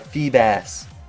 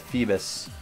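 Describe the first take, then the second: First: The last syllable sounds like 'bass'. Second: The last syllable sounds like 'bus'. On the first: The speaker calls it right. "It's a bass" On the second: The speaker calls it wrong. "Gosh dang it, why did I do that?"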